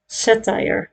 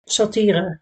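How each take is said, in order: First: The second syllable rhymes with 'wire'. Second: The second syllable does not rhyme with 'wire'. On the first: This is the English pronunciation. "The second syllable sounds like wire" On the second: This is the Dutch pronunciation. "We say satire here in the Netherlands"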